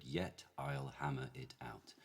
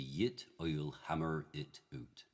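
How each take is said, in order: First: Slow, careful received pronunciation; measured modern RP, no R in "hammer"; modified received pronunciation. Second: Slow Shakespearean original-pronunciation accent. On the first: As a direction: say it word by word in modified RP. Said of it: "in modified received pronunciation, which is my base accent". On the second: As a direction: say it in OP, "yit oil hammerr it oot". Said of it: "which would be ... O P". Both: Shown as a demonstration.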